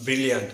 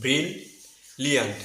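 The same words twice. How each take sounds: First: ব্রিলিয়ান্ট run together with one short L; wrong pronunciation. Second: ব্রিলিয়ান্ট very slowly as bril, pause, liant; syllable-split pronunciation. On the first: Teacher showing learners what to avoid, single-L mispronunciation. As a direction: say ব্রিলিয়ান্ট as bri-liant, no held L. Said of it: "not ব্রিলিয়ান্ট". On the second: Teacher correcting learners, slow bril-liant with both Ls. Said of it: "প্রথম সিলেবলে একটি এল". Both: Shown as a demonstration.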